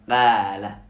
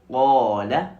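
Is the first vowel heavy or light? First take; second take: light; heavy. First: The first syllable has a light, plain vowel. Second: The first syllable has a heavy, emphatic vowel. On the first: The speaker calls it wrong. "au lieu de Qala" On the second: The speaker calls it right. "on devait dire Qala"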